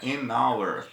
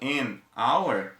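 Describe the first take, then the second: First: The n sound runs straight into the next word. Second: There is a short pause between the two words. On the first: "eu posso conseguir emendar o sonzinho" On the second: "em vez de eu dar aquela pausa"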